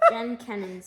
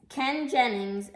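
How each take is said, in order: First: Jen Kennings, first letters swapped; wrong name. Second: Ken Jennings said carefully and slowly; corrected name. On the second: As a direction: fix it to Ken Jennings, deliberate. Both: Real, not acted. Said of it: "I said Jen Kenning".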